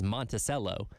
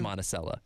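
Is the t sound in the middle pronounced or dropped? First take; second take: pronounced; dropped. First: The t sound is clearly pronounced. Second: The t sound is dropped. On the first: The speaker calls it wrong. "people like to pronounce the T's" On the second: The speaker calls it right. "No, it's"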